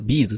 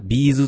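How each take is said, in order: First: It is said with the standard pitch accent. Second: It is said with a Kansai pitch accent. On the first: This is how the band members say it. "あれは本人がビーズって言ってるんで" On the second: This is how people in Kansai say it. "関西やったらやっぱりみんなビーズって言うんですよね"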